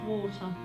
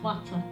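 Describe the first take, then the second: First: It is said in the speaker's own usual accent. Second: It is said in a Yorkshire-style accent. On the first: The speaker calls it wrong. "this is not water" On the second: The speaker calls it right. "it's water"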